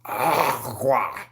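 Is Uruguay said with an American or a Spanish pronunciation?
Spanish. It is said with a Spanish-style pronunciation. The speaker calls it right. "It's Uruguay. Like that"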